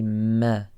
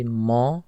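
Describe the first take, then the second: First: "ma" thin, like "meh"; light meem. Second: "ma" dark, like "maw"; heavy meem error. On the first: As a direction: say "ma" with a light front vowel. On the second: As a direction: mispronounce "ma" with a thick open vowel. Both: Shown as a demonstration. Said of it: "It's a light letter".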